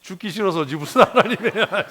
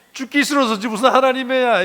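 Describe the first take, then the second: First: Loud and high, laughing through the words; laughing outburst. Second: Much higher and louder, hammering the point; shouted repeat. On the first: Preacher to congregation, blunt truth spoken through laughter. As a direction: blurt it out while laughing at yourself. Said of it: "blunt punchline to the congregation". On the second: Preacher repeating the line to the congregation as a shout. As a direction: shout it out the second time. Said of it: "repeats the punchline louder". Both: Real, not acted.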